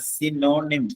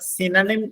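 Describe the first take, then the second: First: The middle vowel is a long 'o'. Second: The middle vowel is short and reduced. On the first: The speaker calls it wrong. "എല്ലാ ആളുകളും ഉച്ചരിക്കുന്നതാണ് സിനോണിം... ആ ഓ നിങ്ങൾ ഒരിക്കലും ദീർഘിപ്പിച്ച് ഉച്ചരിക്കരുത്" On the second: The speaker calls it right. "നിങ്ങൾ സിനണിം എന്നാണ് ഉച്ചരിക്കേണ്ടത്"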